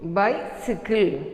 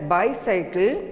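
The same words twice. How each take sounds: First: "bicycle" as BY-si-kul; "bicycle" rhyming with "icicle"; correct pronunciation. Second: "bicycle" as BY-sigh-kul; "bicycle" with a long i in the middle; common mispronunciation. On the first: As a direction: say "bicycle" with a short middle i. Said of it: "It is". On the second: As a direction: say "bicycle" with "cycle" as in cycling. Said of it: "It is not bicycle". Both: Shown as a demonstration.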